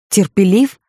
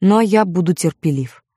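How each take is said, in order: First: A sharp, rising outraged question; indignant echo. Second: Said in the usual way. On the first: A narrator's reading. Barabbas indignantly echoes Melchior's word, rising. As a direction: throw the word back in disbelief. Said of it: "возмутился Варава". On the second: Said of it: "Ты всё ещё в её путах".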